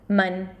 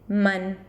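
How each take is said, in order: First: The syllable is said with a Spanish vowel. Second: The same.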